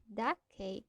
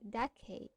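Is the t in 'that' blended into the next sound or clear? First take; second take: blended; blended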